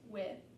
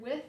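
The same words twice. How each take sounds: First: The word ends with no final consonant. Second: The word ends with a th sound.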